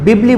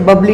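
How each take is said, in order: First: The first vowel sounds like 'i'. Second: The first vowel sounds like 'a'. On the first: The speaker calls it right. "बिबली बोल रहा हूं बच्चे" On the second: The speaker calls it wrong. "बबली नहीं"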